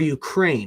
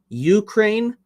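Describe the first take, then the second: First: The stress is on the second syllable. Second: The stress is on the first syllable. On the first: "emphasis on the A" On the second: "emphasis on the U"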